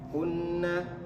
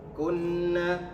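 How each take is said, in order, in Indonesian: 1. Bunyi sengau n dipendekkan. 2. Bunyi sengau n dipendekkan.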